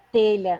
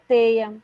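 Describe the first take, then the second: First: The middle sound is a palatal l. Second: The middle sound is a plain glide. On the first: This is the standard form. The speaker calls it right. "Teia é telha" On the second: This is the colloquial form. The speaker calls it wrong. "e não teia"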